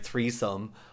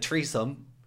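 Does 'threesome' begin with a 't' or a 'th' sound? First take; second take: th; t. First: It begins with a soft 'th' sound. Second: It begins with a hard 't' sound. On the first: "instead of saying like threesome" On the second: "I said that really Irish, because the other way we don't pronounce our H's"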